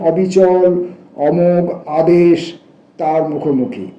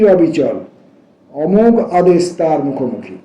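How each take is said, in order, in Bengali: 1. অবিচল শব্দের পরে কোনো বিরতি নেই, কথা চলতে থাকে। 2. অবিচল শব্দের পরে একটি বিরতি আছে।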